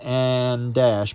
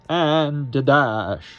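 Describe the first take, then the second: First: The words join with no vowel between them. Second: A short neutral vowel links the two words. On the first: The speaker calls it wrong. "We don't want and dash" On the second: The speaker calls it right. "but and a dash"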